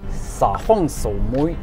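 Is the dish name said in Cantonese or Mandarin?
Cantonese. The dish name is said in Cantonese.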